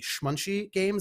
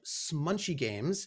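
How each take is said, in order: First: The name begins with a sh sound. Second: The name begins with a plain s sound.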